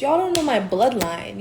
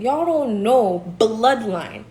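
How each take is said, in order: First: Said in the usual way. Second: "don't" leaned on, the whole line slowed right down; slow emphatic repeat. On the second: Real, not acted. Warning her doubters about her bloodline, slow and deliberate. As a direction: drag out "Y'all don't know bloodline", hitting "don't".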